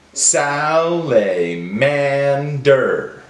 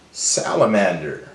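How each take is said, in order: First: "Salamander" very slowly, every syllable drawn out; broken into syllables. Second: Said in the usual way. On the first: Shown as a demonstration. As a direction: stretch "Salamander" into sal, a, man, der. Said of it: "break down the words into syllables". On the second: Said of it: "build it back together".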